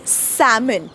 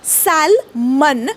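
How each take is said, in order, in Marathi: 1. या शब्दात ल चा आवाज ऐकू येत नाही. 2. मध्ये ल चा आवाज ऐकू येतो. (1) "तो आहे सॅमन" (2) "सॅलमन नका म्हणू"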